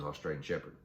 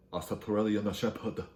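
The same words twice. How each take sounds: First: Said in the usual way. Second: Slow, put-on Korean accent; exaggerated Korean accent with extra vowels; mock Korean accent. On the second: Shown as a demonstration. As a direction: sound out each syllable in a mock Korean accent. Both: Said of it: "you say it with Korean accent".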